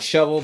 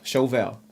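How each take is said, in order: First: The word has its ordinary everyday pronunciation. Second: The word has a fancy, foreign-sounding pronunciation. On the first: "like shovel" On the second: "I just pronounce it fancy"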